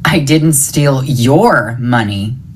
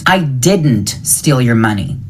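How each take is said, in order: First: The stress falls on the word your. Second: The stress falls on the word didn't. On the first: The money taken belonged to someone else. "It was somebody else's money" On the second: The speaker denies doing it at all. "I didn't do it"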